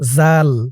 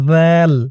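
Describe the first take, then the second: First: It begins with a hard 'j' sound. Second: It begins with a soft 'dh' sound. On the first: The speaker calls it wrong. "আপনারা অনেকে কিন্তু এরকম করে বলেন" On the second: The speaker calls it right. "জিহ্বার মাথা উপরের দাঁতের মাথার সাথে লাগবে"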